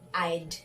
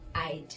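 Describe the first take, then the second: First: The words are shortened into one syllable. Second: The same.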